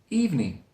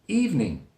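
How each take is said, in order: Both takes have the same delivery.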